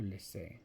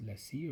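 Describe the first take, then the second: First: "Lecce" ending in an ay sound; questioning "Lecce", final vowel like say; alternate pronunciation. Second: "Lecce" ending in a long ee; "Lecce" with a final ee sound, tentatively; alternate pronunciation. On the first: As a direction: say "Lecce" as "leh-say". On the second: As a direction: say "Lecce" as "let-see". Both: Shown as a demonstration. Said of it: "I don't know how to pronounce that one".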